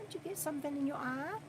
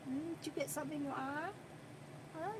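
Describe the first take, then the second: First: Quick, soft question repeated to the pet; hushed pet talk. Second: Quick, soft question to the pet; hushed pet talk. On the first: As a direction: ask again fast and hushed. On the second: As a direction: murmur it fast and close. Softly checking the pet's eye. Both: Real, not acted.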